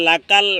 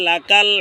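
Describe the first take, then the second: The two takes are said the same way.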